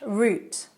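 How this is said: It uses the British pronunciation.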